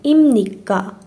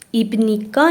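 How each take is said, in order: First: An m sound comes before nikka. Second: A b sound comes before nikka. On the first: The speaker calls it right. "یم نیکا سوالیه" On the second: The speaker calls it wrong. "ایب نیکا نباید بگین"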